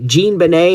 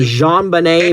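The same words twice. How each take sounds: First: The name is said with English sounds. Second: The name is said with French sounds.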